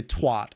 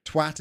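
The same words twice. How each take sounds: First: "twat" said the American way, with an open "ah"; American pronunciation. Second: Said in the usual way. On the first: Retold or imitated. Streamer mimicking how Americans say the word, American "twat". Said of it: "'Cause Americans say twat". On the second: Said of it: "Twat is a British word as well".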